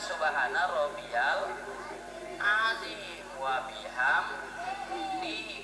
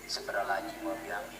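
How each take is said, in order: First: Every syllable is said fully and clearly. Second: It is rushed and slurred, syllables dropped. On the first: The prayer is said as it was taught. The speaker calls it right. "kita diajarin sama guru kita" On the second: The prayer is said carelessly in a hurry. The speaker calls it wrong. "kan cepet lagi"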